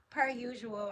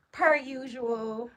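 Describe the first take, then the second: First: Said in the usual way. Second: Slow and louder, stretch "Per usual"; drawn-out emphasis. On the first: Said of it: "repeats phrase plainly after drawn take". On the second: Shown as a demonstration. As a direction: lean on "Per usual", pulled long and loud. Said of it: "repeats phrase with drawn-out emphasis".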